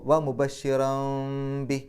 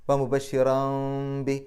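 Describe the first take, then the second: Both takes have the same delivery.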